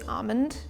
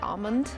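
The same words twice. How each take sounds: First: The word is said with no L sound. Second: The word is said with a clear L sound. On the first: "like dropping the L in entirety" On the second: "throw like that L back and say like almond"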